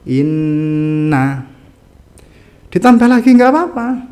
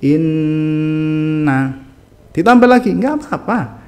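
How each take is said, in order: The two takes are said the same way.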